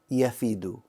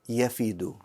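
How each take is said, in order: First: The middle consonant is an f sound. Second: The middle consonant is an f sound.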